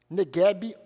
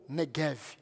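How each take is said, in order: First: The word ends with a b sound. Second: The word ends with a v sound.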